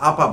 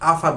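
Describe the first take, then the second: First: The middle consonant is a p sound. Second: The middle consonant is an f sound. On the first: "আপা বলি" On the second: "আমি ব্যক্তিগতভাবে আফা বলি না"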